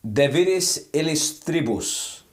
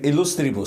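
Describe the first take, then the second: First: Illustribus said slowly as ee-liss-tree-boos, with the second syllable like "liss"; "De viris illustribus" read slowly and carefully, illustribus with an i sound, il-lis-tri-bus; hesitant Latin reading. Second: Illustribus said as il-LUS-tri-bus with a clear u in the second syllable and a falling end; self-correcting to "illustribus", il-lus-tri-bus; corrected Latin. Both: Real, not acted. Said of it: "Sorry, my pronunciation is usually okay".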